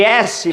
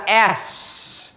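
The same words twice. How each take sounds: First: S said as "ésse" with final vowel; Portuguese letter name. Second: S said as English "es", slow; English letter name. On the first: Teacher shows the Portuguese "ésse" to avoid. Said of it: "Em vez de S". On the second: Teacher gives the English "es" slowly to students. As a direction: cut it short: "es". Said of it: "fica S". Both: Shown as a demonstration.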